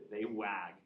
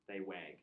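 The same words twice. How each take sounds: First: They wag with "wag" as flat "wæ" vowel; non-Midwest wag. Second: They wag with Midwest "wag" vowel. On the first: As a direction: say "wag" rhyming with bag. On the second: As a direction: say "wag" like "weg", Midwest style. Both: Shown as a demonstration. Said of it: "How do you say it in the non-Midwest accent?".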